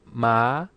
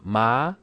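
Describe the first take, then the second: The two takes are said the same way.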